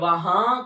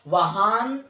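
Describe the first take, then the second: First: The word ends in a nasalized vowel. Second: The word ends with a full n sound. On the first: The speaker calls it right. "बल्कि वहां कहेंगे" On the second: The speaker calls it wrong. "वहान नहीं कहेंगे"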